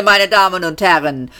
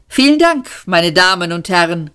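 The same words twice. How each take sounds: First: Meine Damen und Herren, mit fallendem Schluss gesprochen; beiläufig weiter im Conférencier-Ton; Showmaster-Ansage. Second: Laut und hoch gerufen; rief. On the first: Max kündigt die Band an. (Max wendet sich nochmals ans Publikum) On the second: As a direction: ruf es strahlend in den Saal. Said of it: "rief Max". (Max ruft dem Publikum überschwänglich zu) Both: A narrator's reading.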